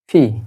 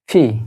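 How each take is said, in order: No difference in how they are said.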